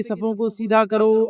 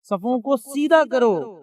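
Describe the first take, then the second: First: Said in the usual way. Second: صفوں کو سیدھا کرو stretched slowly, سیدھا held long; slow, deliberate imam's call to straighten the rows; slow drawn-out command. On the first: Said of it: "وہی بولتے کہ". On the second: Retold or imitated. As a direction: call it out slowly like an imam before prayer. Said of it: "تو کہتے کہ".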